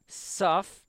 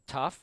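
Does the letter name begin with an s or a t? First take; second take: s; t. First: The letter name begins with s. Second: The letter name begins with t.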